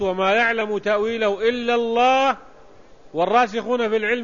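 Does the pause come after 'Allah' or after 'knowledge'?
after Allah. It pauses right after 'Allah', then continues. Only God knows its interpretation. "وإذا وقفت على الله على لفظ الجلالة"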